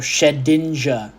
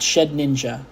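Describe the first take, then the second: First: It is said as one word, without an 'n'. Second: It is said as 'Shed' plus 'Ninja'. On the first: The speaker calls it right. "No, Shedinja" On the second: The speaker calls it wrong. "Not Shed Ninja"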